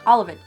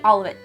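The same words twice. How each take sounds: First: The three words are blended into one sound. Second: The three words are blended into one sound.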